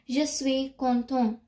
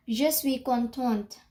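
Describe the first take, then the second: First: "content" ending on the nasal vowel, no T; silent final T. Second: "contente" with a clear T at the end; final T pronounced. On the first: Teacher showing learners the first sentence, final T silent. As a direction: say "content", leaving off the last T. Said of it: "I did not pronounce". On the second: Teacher showing learners the feminine form, final T sounded. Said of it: "I pronounced the T". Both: Shown as a demonstration.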